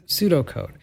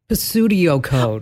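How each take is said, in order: First: The word begins with a silent P. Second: The word begins with an audible P sound. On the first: The speaker calls it right. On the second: The speaker calls it wrong. "I've heard them pronounce it like Pistudio code"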